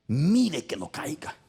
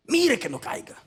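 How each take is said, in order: First: Said in the usual way. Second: "Mire que no caiga" repeated higher as a warning call; preacher repeating the verse with force; emphatic repeat. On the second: Shown as a demonstration. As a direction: lift and press the warning "Mire".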